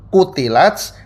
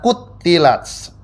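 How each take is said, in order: First: The middle consonant is short and single. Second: The middle consonant is held long and doubled.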